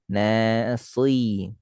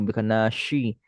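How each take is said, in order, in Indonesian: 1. Konsonan tengahnya 's' emfatik yang tebal. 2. Konsonan tengahnya bunyi 'sh'. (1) "Lebih tebal" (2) "masih shi, bukan nashi"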